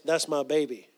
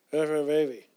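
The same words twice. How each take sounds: First: Said in the usual way. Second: Garbled speech. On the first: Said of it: "What she was saying was". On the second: Retold or imitated. Imitating dying aunt saying "That's my baby", garbled. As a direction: imitate slurred, barely intelligible words. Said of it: "she'd speak like".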